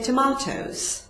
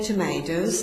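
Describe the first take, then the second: First: Tomatoes is said in a British accent. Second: Tomatoes is said in an American accent. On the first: "the British say tomatoes" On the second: "Americans say tomatoes"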